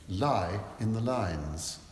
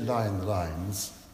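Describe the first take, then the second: First: The key words are clearly emphasized. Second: The key words are said flat, without emphasis. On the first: The meaning comes across clearly. The speaker calls it right. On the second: The meaning comes across unclearly. The speaker calls it wrong.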